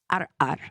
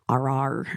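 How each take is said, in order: First: The word is broken by a glottal stop. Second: The word flows without a glottal stop. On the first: The speaker calls it right. "which has what's called a glottal stop" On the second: The speaker calls it wrong. "rather than"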